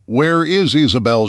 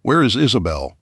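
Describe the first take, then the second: First: Higher, loud protest shout; shouted question. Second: Said in the usual way. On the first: A narrator's reading. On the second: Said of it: "with hand-drawn signs".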